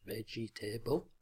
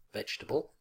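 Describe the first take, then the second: First: Vegetable as four syllables, VEJ-ee-TAY-bul; wrong syllable count. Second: Vegetable squeezed to three syllables, VEJ-tuh-bul; correct syllable count. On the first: Teacher showing learners' mistake, vegetable with an extra syllable and "table". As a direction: sound out every written part of vegetable, with a full "table". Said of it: "not vegetable". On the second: Teacher modelling the word for learners, vegetable in three syllables. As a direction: say vegetable with the middle e dropped. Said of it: "more or fewer syllables than the learners expect".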